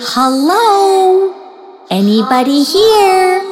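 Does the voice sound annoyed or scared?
annoyed. The voice sounds annoyed and impatient.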